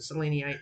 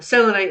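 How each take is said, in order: First: The start sounds like the name Selene. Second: The start does not sound like Selene. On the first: This is a personal pronunciation. "I pronounce it seleniite because it has the name Selene right in there" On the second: This is the standard technical pronunciation. "is a technical way to pronounce it"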